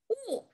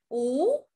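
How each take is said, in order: First: The pitch falls sharply from high to low. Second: The pitch rises from middle to high.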